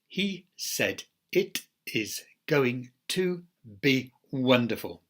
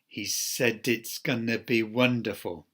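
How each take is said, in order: First: Every word is said fully and separately. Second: Words are linked with ordinary connected-speech reductions. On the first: "Those are greenhouse forms" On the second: "there we have the connected speech rules applied"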